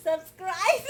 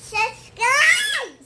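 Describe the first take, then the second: First: Said in the usual way. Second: subscribe yelled high and loud; shouted subscribe. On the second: Real, not acted. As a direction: belt out subscribe. (Subscribe ऊँची और ज़ोरदार आवाज़ में चिल्लाकर) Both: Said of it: "मामा को प्यार कैसे करते हैं बता दो तो।".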